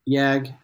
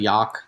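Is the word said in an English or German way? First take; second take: English; German. First: The word is said in an English way. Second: The word is said in a German way.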